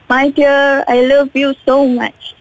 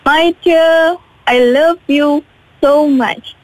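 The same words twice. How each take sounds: First: It is said rather fast. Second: It is said more slowly.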